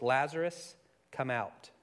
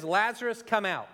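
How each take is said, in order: First: Said in the usual way. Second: Higher, louder call into the tomb; commanding call. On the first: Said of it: "he called in a loud voice". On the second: Retold or imitated. Jesus calling Lazarus from the tomb, a commanding call. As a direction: call him out with authority. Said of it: "Jesus says".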